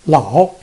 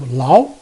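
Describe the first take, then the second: First: The syllable has a low dipping tone. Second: The syllable has a rising tone. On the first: "we change the first one" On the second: "into a second tone"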